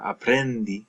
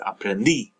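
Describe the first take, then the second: First: The stress falls before the final syllable. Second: The stress falls on the final syllable. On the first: The speaker calls it wrong. "it's not escribí or aprendí" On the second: The speaker calls it right. "stress on that last syllable"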